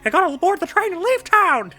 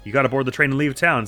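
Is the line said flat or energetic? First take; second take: energetic; flat. First: It is said in a lively, energetic voice. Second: It is said in a flat, low-energy voice.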